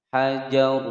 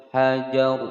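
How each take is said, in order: Both takes have the same delivery.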